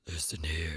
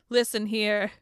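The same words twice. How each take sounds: First: It is said in a put-on spooky deep voice. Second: It is said in a normal speaking voice.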